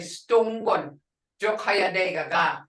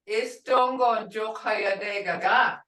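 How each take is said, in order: First: The first word begins directly with 's'. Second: The first word begins with an 'i' vowel. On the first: This is how it is said in everyday conversation. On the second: This is the formal way to say it.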